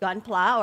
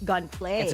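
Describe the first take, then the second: First: The last syllable ends in a plain 'ah' vowel. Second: The last syllable ends with an 'ay' sound. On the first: The speaker calls it right. "Is it gunpla" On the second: The speaker calls it wrong. "or gunplay?"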